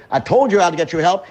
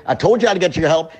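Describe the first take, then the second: No difference in how they are said.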